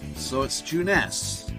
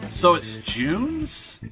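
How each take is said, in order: First: The e is sounded as an a vowel. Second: The e is silent, like June plus s. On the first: The speaker calls it right. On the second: The speaker calls it wrong.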